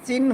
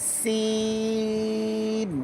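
First: সিন cut short, vowel not held; wrong short sin. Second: সিন with whistling s and very long level ee; correct long sin. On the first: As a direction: say সিন quickly, with no stretch. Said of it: "সিন হবে না". (ভুল, ছোট সিন) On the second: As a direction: hiss the s, hold সিন softly. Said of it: "লম্বা হবে". (সিন লম্বা, চড়ুই পাখির আওয়াজের মতো) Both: Shown as a demonstration.

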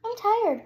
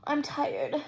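First: Tired said higher and louder, falling; stress on tired. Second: Said in the usual way. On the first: Real, not acted. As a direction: lean hard on tired.

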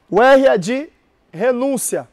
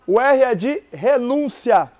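The two takes are said the same way.

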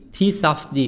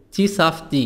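Both takes have the same delivery.

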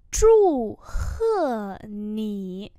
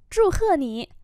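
First: Long syllables with gaps; tone-by-tone repeat; slow model pronunciation. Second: Said in the usual way. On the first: Shown as a demonstration. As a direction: say it slowly for learners. Teacher repeats phrase slowly.

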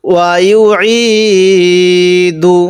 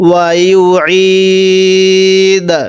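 First: ওয়া ইউ ই দু with long "ই", ending on "du"; full ending. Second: ওয়া ইউ ই দা with long "ই", closed on a bare d; waqf stop ending. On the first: Teacher joins the syllables, ending on full দু. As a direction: hold "ই", then sound the vowel of দু. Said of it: "দাল পেশ দু". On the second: Teacher shows the pause, ওয়া ইউ ই দা ending in d. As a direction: stretch "ই" and stop on d without u. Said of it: "এখন ওয়াকফ যদি করি". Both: Shown as a demonstration.

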